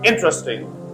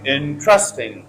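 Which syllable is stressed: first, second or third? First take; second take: first; second. First: The stress is on the first syllable. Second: The stress is on the second syllable. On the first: The speaker calls it right. "If you put stress on first syllable" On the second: The speaker calls it wrong. "If you put stress on second syllable ... as many people say"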